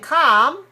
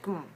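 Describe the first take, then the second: First: The vowel is full and open. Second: The vowel is short, weak and reduced. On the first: The speaker calls it wrong. "instead of saying calm" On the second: The speaker calls it right. "you have to say kum, kum. Very short, very weak, reduced"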